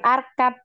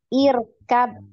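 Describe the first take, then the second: First: The word begins with an 'a' vowel. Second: The word begins with an 'i' vowel. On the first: The speaker calls it wrong. "Jadi bukan arkab ya" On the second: The speaker calls it right. "tapi ir ya"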